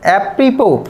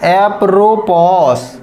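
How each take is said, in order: First: The final s is silent. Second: The final s is pronounced. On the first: The speaker calls it right. "अब हमको राइट करना है" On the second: The speaker calls it wrong. "वैसे रंग में हम पढ़ेंगे"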